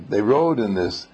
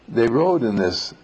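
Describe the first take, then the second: No difference in how they are said.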